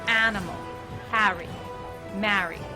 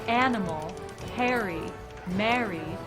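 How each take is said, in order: First: It is said in a New Jersey accent. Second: It is said in a general American accent.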